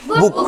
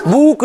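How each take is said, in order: First: बुक with a short, quick u; short vowel demo. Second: बुक with a stretched, higher "oo"; wrong long-vowel demo. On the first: Teacher models the double-o rule, बुक with short u. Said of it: "बुक नहीं, क्या पढ़ेंगे". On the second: Teacher shows the reading to avoid, बुक with long u. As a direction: draw out the u in बुक, pitched up. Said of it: "बुक नहीं". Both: Shown as a demonstration.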